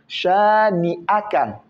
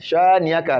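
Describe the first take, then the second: First: The middle 'a' sound is clearly pronounced. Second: The middle 'a' sound is barely heard. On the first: The speaker calls it right. "Le A, on doit bien le prononcer" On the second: The speaker calls it wrong. "Le A ne sort pas, non"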